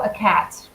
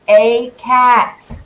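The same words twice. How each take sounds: First: The article is said weakly, unstressed. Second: The article is said fully, with emphasis. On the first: "if I'm just speaking normally" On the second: "I'll emphasize it to you"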